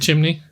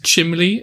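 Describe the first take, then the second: First: The second syllable starts with an N sound. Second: The second syllable starts with an L sound. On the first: The speaker calls it right. "instead of chimney" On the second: The speaker calls it wrong. "I used to think it was chimley"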